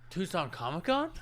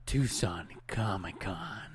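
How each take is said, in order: First: It sounds shocked, like a stunning discovery. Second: It sounds menacing, like a villain's monologue.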